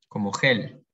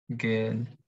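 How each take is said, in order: First: It starts with a throaty, breathy h-like sound. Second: It starts with a hard g sound. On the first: "nosotros una G y una vocal es G" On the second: "pero en alemán es G, es siempre G"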